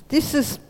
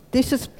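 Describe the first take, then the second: No difference in how they are said.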